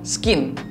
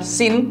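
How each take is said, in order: First: It starts with an S followed by a K sound. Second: It starts with a plain S sound, no K. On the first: The speaker calls it wrong. "bukan skin" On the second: The speaker calls it right. "C-nya itu adalah silent C"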